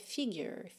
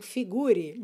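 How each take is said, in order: First: It is said with English pronunciation. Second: It is read as a Portuguese word. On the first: The speaker calls it right. "cuidado aí que a pronúncia é figure" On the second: The speaker calls it wrong. "Como ela quase que parece uma palavra escrita em português... você vai já ouvir ali mentalmente, não figure"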